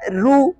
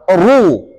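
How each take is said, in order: First: The r is pronounced thin and light. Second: The r is pronounced thick and heavy. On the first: The speaker calls it wrong. "Enggak boleh dibaca" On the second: The speaker calls it right.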